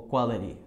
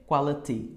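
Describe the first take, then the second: First: QUALITY said "qualari"; R sound. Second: QUALITY with a clear "ti" at the end; T pronunciation. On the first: ("quality" terminando em "ri") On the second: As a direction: say the T of QUALITY fully. ("Quality" com T claro) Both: Shown as a demonstration. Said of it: "Pronunciando com o som de R".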